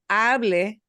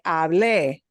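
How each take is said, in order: First: The stress is on the first syllable. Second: The stress is on the last syllable. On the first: It is the subjunctive, that he speaks. The speaker calls it right. "es importante pronunciar esta frase así" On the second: It means I spoke. The speaker calls it wrong. "No se pronuncia"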